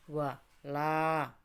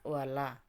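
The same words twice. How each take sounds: First: The vowel after the L is lengthened. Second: The vowel after the L is short. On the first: The speaker calls it right. "dipanjangkan satu alif atau dua harokat" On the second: The speaker calls it wrong. "tidak wala"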